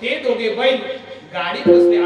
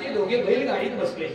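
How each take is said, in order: First: There is a break between bail and gaadit. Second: Bail and gaadit run together without a break. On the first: The two people are called bulls. The speaker calls it wrong. "असं केलं तर वाक्याचा अर्थ बदलतो" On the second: The two people sat in a bullock cart. The speaker calls it right. "मूळ वाक्य असं आहे"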